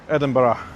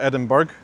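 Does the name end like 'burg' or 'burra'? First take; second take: burra; burg. First: The name ends with a soft 'burra' sound. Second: The name ends with a hard 'burg' sound. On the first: The speaker calls it right. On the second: The speaker calls it wrong.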